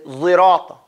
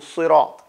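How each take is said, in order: First: The word begins with a z-like sound. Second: The word begins with a plain s sound. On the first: "I said Zirata" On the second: "as opposed to Sirat"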